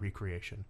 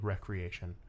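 First: The word begins with a long 'ree' sound. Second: The word begins with a short 'reck' sound. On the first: Games are a creating of something again. The speaker calls it wrong. "and not recreation" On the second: Games are a leisure activity. The speaker calls it right. "obviously recreation"

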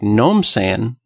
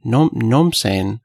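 First: The first words are slurred into one syllable. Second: The same.

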